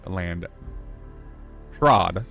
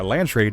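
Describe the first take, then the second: First: The second syllable rhymes with 'nod'. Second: The second syllable rhymes with 'made'. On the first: The speaker calls it right. "is actually" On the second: The speaker calls it wrong. "been pronouncing that wrong the entire time"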